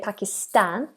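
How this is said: The last syllable has a short, flat a. "Americans say Pakistan"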